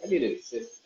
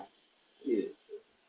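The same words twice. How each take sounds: First: Said in the usual way. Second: Soft breathy whisper of the same plea. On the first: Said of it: "Guys, I need an assistant". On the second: Pretend. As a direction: whisper it like a secret wish.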